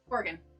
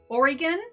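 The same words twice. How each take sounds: First: The final syllable is reduced, like "gin". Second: The final syllable is given full emphasis. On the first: The speaker calls it right. "there's no emphasis on those letters. For somebody who is from Oregon, you just pronounce it Oregon" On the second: The speaker calls it wrong. "I've heard uh"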